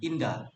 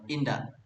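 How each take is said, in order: First: The final k sound is dropped. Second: It ends with a strong k sound. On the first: "They they don't use K in the last word" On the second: "the consonant K at the at the end of a word are pronunciation strongly"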